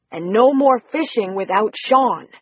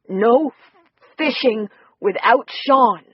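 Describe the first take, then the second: First: Slow, firm but gentle scold; mild scolding. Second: Slow, a bit of a scolding tone; mild scolding. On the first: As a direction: set the rule for the little girl kindly. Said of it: "scolding tone". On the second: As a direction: gently tell the little girl off. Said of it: "in a bit of a scolding tone". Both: Acted.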